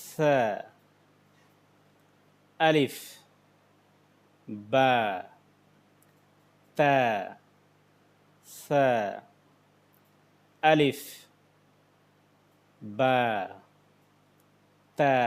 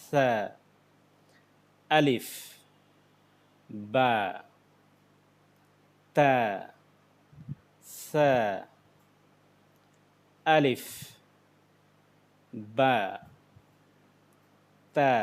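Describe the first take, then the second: The two takes are said the same way.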